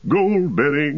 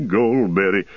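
First: Sung high. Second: Sung, Goldberry dropped low in the tune. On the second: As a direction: sing Goldberry on a deep low note. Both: A narrator's reading. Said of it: "another burst of song".

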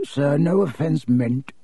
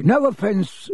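First: Hasty apology, softer. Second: Quick apology. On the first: Borgin apologises to Malfoy, hurried and deferential. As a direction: back down with a bow in the voice. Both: Acted. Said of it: "Mister Borgin said quickly".

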